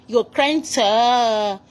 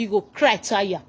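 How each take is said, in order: First: Very slow, stretched mocking singsong; mock drawn-out taunt. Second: Said in the usual way. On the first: Shown as a demonstration. Commenter slowly mocking the crying actress. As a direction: drag each word out to taunt her. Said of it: "mocking repeat of cry". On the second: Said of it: "repeats it drawn out".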